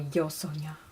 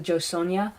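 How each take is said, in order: First: The name is said with a Spanish sound. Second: The name is said with an English sound.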